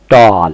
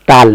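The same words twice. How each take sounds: First: "टाल" said tawl; rounded "aw". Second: "टाल" with unrounded aa, loud; open aa. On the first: Teacher correcting the vowel, rounded aw pronunciation. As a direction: lightly round the lips on "टाल" for aw. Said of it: "थोड़ा सा हल्का मुंह round करके". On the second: Teacher showing what not to say, open aa pronunciation. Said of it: "टाल नहीं". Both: Shown as a demonstration.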